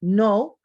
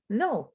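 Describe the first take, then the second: First: NO with a long gliding English oh; English pronunciation. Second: NO with a short, pure Spanish o; Spanish pronunciation. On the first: Teacher compares look-alike words, English pronunciation. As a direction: say "no" as English, louder. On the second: Teacher compares look-alike words, Spanish pronunciation. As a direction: say "no" as the Spanish word. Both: Shown as a demonstration. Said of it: "they look similar, but they have different meanings".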